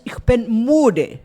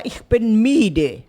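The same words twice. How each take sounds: First: Slow, loud "müde" with a rounded vowel, close to "moo-de"; modern German pronunciation. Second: Slow, loud "müde" with an ee-like vowel, "mee-de"; old German pronunciation. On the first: Teacher showing how Germans now speak, "müde" with rounded ü. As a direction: round the lips firmly on "müde", drawn out. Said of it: "Nós não falamos mais assim". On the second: Teacher mimicking her old German, "müde" said as "miede". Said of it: "mudou a pronúncia". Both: Retold or imitated.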